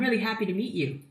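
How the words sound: It is said in a bright, energetic voice. The speaker comes across as full of positive energy. "You want to project positive, vibrant energy?"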